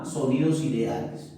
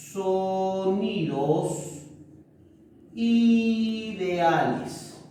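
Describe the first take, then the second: First: Said in the usual way. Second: Sonidos ideales stretched out very slowly, word by word; drawn-out key term. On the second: Shown as a demonstration. Teacher stressing the term for the class, very slow and drawn out.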